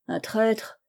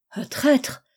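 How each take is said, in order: First: Said in the usual way. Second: Higher-pitched indignant echo of TRAÎTRE; acted shock, pitch jumping up; shocked question. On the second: A narrator's reading. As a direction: repeat "traître" as a startled question. Shocked listener echoes the accusation.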